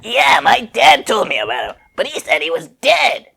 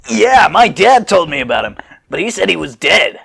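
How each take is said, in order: First: Put-on higher, lighter kid boy voice; young Trunks piping up. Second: Put-on kid voice. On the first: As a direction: play him as a young boy. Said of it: "if I had recognized it was a kid". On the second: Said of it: "Goten's age versus Trunks' age".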